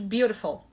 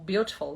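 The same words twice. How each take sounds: First: It is said with an American accent. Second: It is said with a British accent. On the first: "em inglês americano" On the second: "na pronúncia britânica"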